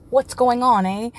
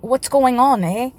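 First: Light Canadian accent, a bit louder, on falls. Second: A light Canadian accent, a bit louder, a falling on. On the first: Repeating his Canadian impression, light Canadian accent. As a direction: say it like a friendly Canadian. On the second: Showing off his Canadian impression, light Canadian accent. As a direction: play the friendly Canadian hockey player. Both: Shown as a demonstration. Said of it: "There's my Canadian accent".

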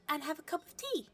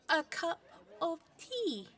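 First: Said in the usual way. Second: "A cup of tea" louder and higher, each word leaned on; "cup" and "tea" hit hard and slow; pointed repeat. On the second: Acted. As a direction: stress the code phrase so they get it. Code phrase repeated pointedly.

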